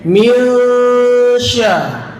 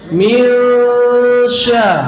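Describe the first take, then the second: The two takes are said the same way.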